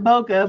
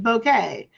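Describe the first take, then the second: First: The word ends with a short 'kuh' sound. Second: The word ends with a 'kay' sound. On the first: This is the speaker's habitual pronunciation. The speaker calls it wrong. "I call it bokeh" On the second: This is the pronunciation the speaker looked up. The speaker calls it right. "apparently it's bouquet"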